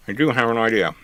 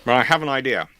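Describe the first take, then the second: First: "do" stressed with a falling tune. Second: Said in the usual way. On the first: Real, not acted. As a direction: lean on the word "do".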